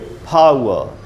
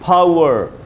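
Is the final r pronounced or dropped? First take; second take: dropped; pronounced. First: The final r is dropped. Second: The final r is pronounced strongly. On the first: This is the British way. "But British में बोलेंगे" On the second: This is the American way. "American में बोलेंगे"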